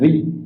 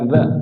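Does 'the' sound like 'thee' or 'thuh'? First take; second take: thee; thuh. First: 'The' is said with a long 'ee' vowel. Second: 'The' is said with a short 'uh' vowel. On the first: The speaker calls it right. "bertemu dengan huruf vokal maka jadi bunyinya the" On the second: The speaker calls it wrong. "bukan the"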